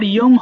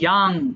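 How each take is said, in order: First: The vowel is a rounded 'oh' sound. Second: The vowel is an open 'ah' sound. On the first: The speaker calls it wrong. "এরপর ইয়ং হবে না" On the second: The speaker calls it right. "এটা হবে ইয়াং"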